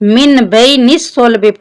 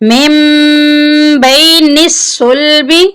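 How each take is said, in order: First: The n is pronounced clearly before the b. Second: The n turns into an m sound. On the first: The speaker calls it wrong. "यहाँ पर भी बहुत से लोग गलती करते हैं" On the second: The speaker calls it right. "हमने इस मीम के साथ मिलाकर पिछली मीम को पढ़ना है"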